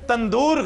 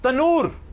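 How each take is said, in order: First: A d sound comes before the long oo. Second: No d sound comes before the long oo. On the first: The speaker calls it wrong. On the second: The speaker calls it right.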